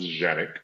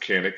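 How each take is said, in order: First: The name begins with a J sound. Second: The name begins with a hard K sound. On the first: This is the original pronunciation. "the origin of it was Janik, uh, like, kind of like with a J" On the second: This is how it is said in the United States. "we pronounce it Canic in the United States"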